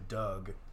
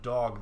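First: It is said like dug, Baltimore style. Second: It is said in the standard way. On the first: "they'll say dug" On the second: "instead of dog"

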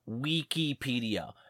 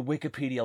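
First: The word is pronounced in an odd, Latin-like way. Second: The word is pronounced in the common, everyday way. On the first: This copies a pronunciation based on classical Latin. The speaker calls it wrong. "the one dude just kept pronouncing it Wikipedia" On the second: This is how most people say it. The speaker calls it right. "Just say Wikipedia like everyone else"

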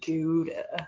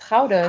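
First: Gouda is pronounced the common English way. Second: Gouda is pronounced the original Dutch way.

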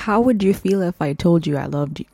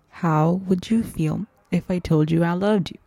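First: It is said at normal speed. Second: It is said slowly.

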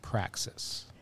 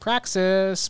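First: It is said in a smooth, measured radio voice. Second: It is said in a casual, excitable podcast voice. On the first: "versus the NPR voice" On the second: "That's the podcast voice"

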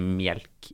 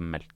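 First: It is said in a southwestern Norwegian dialect. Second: It is said in standard eastern Norwegian. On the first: "han er jo egentlig fra en sånn Sør-Vestlandet. Og sier melk" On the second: "i stedet for melk"

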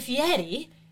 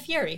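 First: The name is pronounced with an Italian-style sound. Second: The name is pronounced with an Americanized sound. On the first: "it's not Guy Fieri" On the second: "The Americanized"

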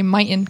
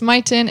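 First: The t is swallowed, in a Utah accent. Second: The t is clearly pronounced.

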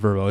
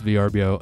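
First: The name is said as one word. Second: The name is spelled out letter by letter. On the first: The speaker calls it wrong. "not Vrbo" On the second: The speaker calls it right. "You say the letters"

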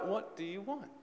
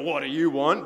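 First: It sounds warm and helpful. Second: It sounds annoyed and impatient.

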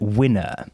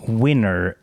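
First: The final R sound is dropped. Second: The final R sound is pronounced.

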